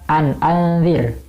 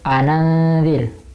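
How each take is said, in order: First: A glottal stop separates the two words. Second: The two words run together without a stop.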